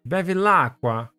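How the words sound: It is said with exaggerated Italian flair. The speaker calls it right.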